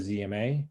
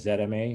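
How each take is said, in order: First: The letter Z is pronounced zee. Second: The letter Z is pronounced zed.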